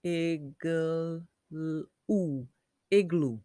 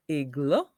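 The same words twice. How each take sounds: First: "igloo" sounded out with a long final oo; "igloo" ending in a full oo. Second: "igloo" ending in a short uh, like igluh; "igloo" with the last vowel cut short; wrong uh sound. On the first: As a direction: stretch "igloo" in parts, then blend it. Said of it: "oo sound". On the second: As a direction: say "igloo" as a questioning ig-luh. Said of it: "Or is it". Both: Shown as a demonstration.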